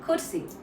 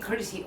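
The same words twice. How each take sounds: First: It is said in a neutral accent. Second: It is said in an American accent. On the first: The listener is a friend. "If I'm s- talking to anyone who's my friend, I would usually say like" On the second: The listener is an American client. "only when I'm talking to an American client"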